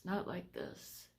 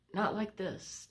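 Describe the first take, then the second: First: Softer, slower repeat with "not" still leaned on; quiet slow echo. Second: Firm emphasis on "not" with a falling end; stressed not. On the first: Telling viewers this illness is worse, a soft slow echo. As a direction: let the words sink away, quiet and slow. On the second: Telling viewers this illness is worse, stressing "not". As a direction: lean on "not", then let it drop. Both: Real, not acted. Repeating how bad it feels.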